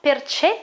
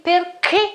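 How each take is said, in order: First: "perché" mispronounced per-CHEH; wrong soft CH. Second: "perché" said per-KEH, hard K; correct hard K. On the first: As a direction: say "perché" with ch as in check, not k. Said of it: "and not perché". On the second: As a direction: say "perché" with k, the H silent. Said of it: "I pronounce it like this". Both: Shown as a demonstration.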